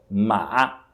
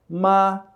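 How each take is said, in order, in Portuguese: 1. O tom desce e depois sobe. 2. O tom permanece nivelado e plano. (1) "é o terceiro tom, ma, que significa cavalo" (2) "é o primeiro tom, ma, que significa mãe"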